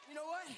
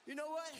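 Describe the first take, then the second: No difference in how they are said.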